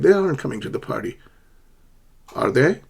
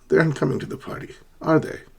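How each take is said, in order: First: The tag sounds like a genuine, uncertain question. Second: The tag sounds like a confident, certain statement. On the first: The speaker is unsure and wants to know. "You're not one hundred percent sure if they're coming to the party, so you're asking a question" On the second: The speaker is already sure of the answer. "Otherwise, you would say"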